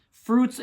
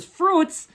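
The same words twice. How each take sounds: First: Said in the usual way. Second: High, loud disbelieving "Fruits?"; incredulous. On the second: Acted. Hoser doubts Canada has fruit, incredulous high "Fruits?". Queries word just read from label.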